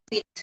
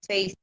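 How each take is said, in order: First: The vowel is a short 'i' sound. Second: The vowel is a long 'ay' sound. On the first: The speaker calls it wrong. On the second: The speaker calls it right.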